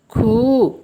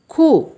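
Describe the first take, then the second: First: खू said with a long drawn ऊ; long-vowel take of खू. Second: खू said short like खु, pitched up; short-vowel take of खू. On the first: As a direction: stretch the vowel in खू. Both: Shown as a demonstration. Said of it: "जैसे".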